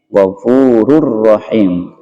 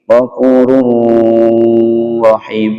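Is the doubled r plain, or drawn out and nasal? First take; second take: plain; drawn out. First: The doubled r is short and not nasal. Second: The doubled r is drawn out or nasal. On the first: The speaker calls it right. "hanya membentuk tasydid" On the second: The speaker calls it wrong. "bukan begini"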